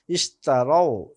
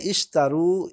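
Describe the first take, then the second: First: "ইশতারাও" slowly, ending in ao. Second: "ইশতারু" with a long closing oo; imperative u ending. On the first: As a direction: say "ইশতারাও" with a falling rao glide. Form contrasted with the imperative. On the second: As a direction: say "ইশতারু" slowly, rising on the final roo. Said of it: "আমর হবে ইশতারু". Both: Shown as a demonstration.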